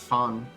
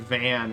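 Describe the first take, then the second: First: It begins with an F sound. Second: It begins with a V sound. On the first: "they would pronounce fan" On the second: "Like the word van"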